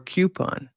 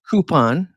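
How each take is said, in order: First: It begins with a 'kyoo' sound, like Q. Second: It begins with a plain 'coo' sound.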